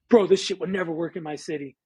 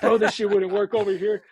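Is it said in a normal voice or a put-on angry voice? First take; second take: normal voice; angry voice. First: It is said in a normal voice. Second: It is said in a put-on angry DJ voice.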